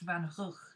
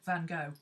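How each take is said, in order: First: The name ends in a throaty, rasping 'ugh' sound. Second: The name ends in a plain English 'go' sound. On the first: "I believe it's pronounced Van Rug or something close to it" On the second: "This is why English say Van Gogh"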